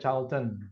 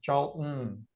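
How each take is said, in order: First: The t is fully released as a clear t. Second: The t is held back as a glottal stop. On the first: The speaker calls it wrong. "tapi nggak dibaca Charlton" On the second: The speaker calls it right. "British style, jadi bacanya pakai eh, hentakan atau tahanan"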